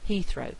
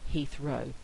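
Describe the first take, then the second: First: The stress is on the first syllable. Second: The stress is on the second syllable. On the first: The speaker calls it wrong. "people tend to think it's stressed" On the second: The speaker calls it right. "but actually it's"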